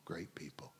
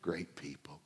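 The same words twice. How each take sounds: First: Whispered aside; whispered repeat. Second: Said in the usual way. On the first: Real, not acted. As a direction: breathe it out softly. Repeated softly.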